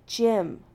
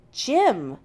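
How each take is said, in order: First: Said in the usual way. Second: Loud, higher-pitched insistence; just as firm. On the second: A narrator's reading. Jim correcting McCoy's use of his title, firmly. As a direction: firmly insist on the first name. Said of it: "Jim repeats just as firmly".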